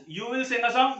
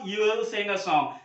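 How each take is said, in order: First: Said in the usual way. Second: "you will" merged as you'll, w dropped; contraction. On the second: Shown as a demonstration. Teacher repeats the example in short form, "you will" contracted. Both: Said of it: "You will का contraction".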